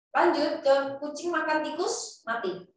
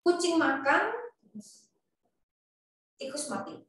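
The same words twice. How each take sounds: First: "kucing makan tikus" in one run, pause, then "mati"; pause before mati. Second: Comma pause after "Kucing makan", then "tikus mati" falling. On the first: Lecturer contrasts the other reading, pausing only before "mati". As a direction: hold the break until "mati". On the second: Lecturer shows students the comma after kucing, pausing after "Kucing makan". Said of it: "pakai koma setelah kucing". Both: Shown as a demonstration.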